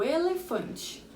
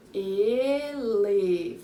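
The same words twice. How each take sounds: First: Said in the usual way. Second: "Elefante" stretched as e, le, fan, te; very slow, full-voiced "Elefante" for counting; syllable by syllable. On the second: Shown as a demonstration. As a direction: draw out four beats in "Elefante". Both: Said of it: "Quatro sílabas".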